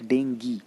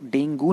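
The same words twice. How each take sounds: First: डेंगी with an ee ending; correct pronunciation. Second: डेंगू with an oo ending; wrong pronunciation. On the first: Teacher asks students to correct others, डेंगी ending in ee. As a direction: say "den-GEE" as the proper form. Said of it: "it's डेंगी". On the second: Teacher repeats the common mistake, डेंगू ending in oo. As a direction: say "den-GOO" as the mistaken form. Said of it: "तो डेंगू नहीं होता है". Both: Shown as a demonstration.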